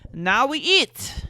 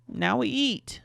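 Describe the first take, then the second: First: Put-on high, loud, slow French accent; heavy French accent. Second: Said in the usual way. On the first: Boyfriend announcing the meal, heavy French accent. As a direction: lean hard into a French accent, stretching it. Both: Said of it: "heavy French accent".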